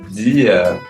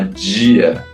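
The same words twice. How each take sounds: First: The d is a plain, hard d sound. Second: The d sounds like a soft 'dj' sound. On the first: "ao invés de falar dia" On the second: "a gente fala dia, a gente põe um J"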